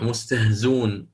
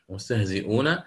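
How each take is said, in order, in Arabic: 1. الكلمة تفقد همزتها في الوسط. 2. الكلمة تحتفظ بهمزتها في الوسط.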